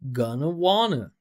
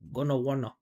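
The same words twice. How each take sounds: First: The stressed vowels are open and clear. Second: The stressed vowels are closed and unclear. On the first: The speaker calls it right. "That's why I'm making this bigger" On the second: The speaker calls it wrong. "Don't say this"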